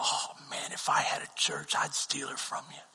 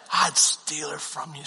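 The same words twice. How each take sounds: First: Breathy whisper, teasing; whispered joke. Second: Said in the usual way. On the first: Retold or imitated. Mentor whispering he'd steal the worship leader. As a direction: whisper it like a secret tease. Mentor's joking confided aside.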